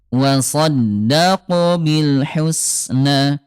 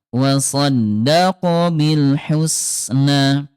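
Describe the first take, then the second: Both takes have the same delivery.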